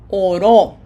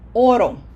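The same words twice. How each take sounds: First: The stress is on the last syllable. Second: The stress is on the first syllable. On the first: Someone prayed in the past. "which means he prayed" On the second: It refers to the metal gold. "Without the accent mark, it sounds oro"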